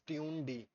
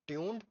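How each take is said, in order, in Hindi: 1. यह दो भागों में बोला जाता है, tune-D। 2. यह एक अक्षर में बोला जाता है, tuned।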